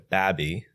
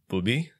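First: Midwestern style, with an 'a' vowel. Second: Middle Eastern style, with an 'oo' vowel.

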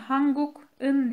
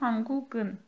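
First: The k is kept apart from the ending. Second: The k links into the ending as g. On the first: The speaker calls it wrong. "Hanguk'un diye değil" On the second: The speaker calls it right. "Sanki G harfi buradaymış gibi okunuyor"

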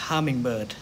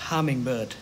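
Both takes have the same delivery.

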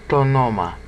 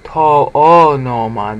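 First: The two vowels merge into one syllable. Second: The two vowels are said as separate syllables. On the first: The speaker calls it right. "Now you have to say tonoma" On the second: The speaker calls it wrong. "if I say to-o-noma, that's considered inelegant"

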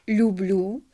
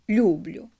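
The two takes are said the same way.

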